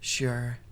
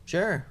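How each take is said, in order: First: It is said in a sad tone. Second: It is said in a fairly neutral tone.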